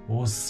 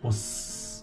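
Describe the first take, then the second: First: The final s is a voiced z. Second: The final s is a voiceless hiss. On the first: "quando junta com a palavra livros, se torna vozeado, tendo um som sonoro de z" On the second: "Ele é desvozeado com os"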